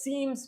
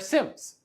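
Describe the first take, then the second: First: The word sounds like 'seams', with a long vowel. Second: The word sounds like 'sims', with a short vowel. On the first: The speaker calls it wrong. "I pronounced them as seams, but I was corrected" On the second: The speaker calls it right. "they're SIMS"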